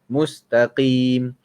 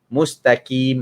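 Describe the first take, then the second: First: The middle consonant is a deep, pressed q. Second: The middle consonant sounds like a plain k. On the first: The speaker calls it right. "tekan sikit" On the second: The speaker calls it wrong. "ah itu salah"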